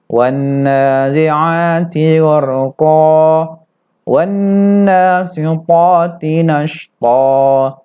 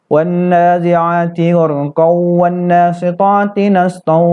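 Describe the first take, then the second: First: A stop follows gharq, ending in long -a. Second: The verses run together, gharq ending in -an. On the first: The reciter stops at the end of each verse. "kalau kita wakafkan, kita berhenti di ujung-ujung ayat ini" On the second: The verses are joined in one breath. "kalau kita wasolkan ... Tidak terjadi dia mat atau mat iwat"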